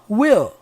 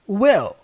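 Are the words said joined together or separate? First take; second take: joined; joined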